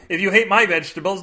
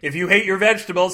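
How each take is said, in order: First: "my" lifted and punched, rising tune; "my" stressed with a rising tune. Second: Said in the usual way. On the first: Shown as a demonstration. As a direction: lean on "my" in the line.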